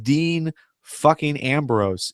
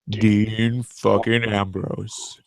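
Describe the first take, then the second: First: It is said in a normal voice. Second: It is said in a very deep voice.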